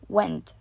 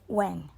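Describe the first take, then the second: First: The final t sound is clearly pronounced. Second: The final t sound is left out.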